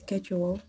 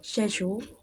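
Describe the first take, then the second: First: It is said with an American accent. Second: It is said with a British accent. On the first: "while America is" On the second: "For the British for the British uh, English accent"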